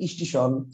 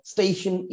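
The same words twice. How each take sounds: First: স্টেশন said as "স্টিশন", the e turned to i; changed pronunciation. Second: Said in the usual way. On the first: Shown as a demonstration. Teacher demonstrating the sound change in স্টেশন. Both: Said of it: "এগুলো সব কিসের উদাহরণ".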